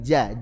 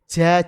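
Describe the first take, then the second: First: The j is made in its normal middle position. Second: The j is made too far forward, with breath. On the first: The speaker calls it right. "huruf jim Arabi biasa begini" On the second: The speaker calls it wrong. "terlalu depan lagi menjadi ja"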